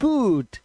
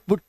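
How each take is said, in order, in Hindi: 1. स्वर लंबा और खिंचा हुआ है। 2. स्वर छोटा और झटके वाला है।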